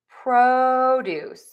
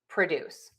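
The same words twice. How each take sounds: First: The stress is on the first syllable. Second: The stress is on the second syllable. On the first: It is used as a noun. "stress syllable number one in nouns" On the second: It is used as a verb. "syllable number two in verbs"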